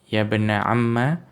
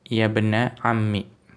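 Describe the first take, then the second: First: The last word ends with an 'a' vowel. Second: The last word ends with an 'i' vowel. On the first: "dengan akhiran fathah" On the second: "Kalau mau dibaca kasroh"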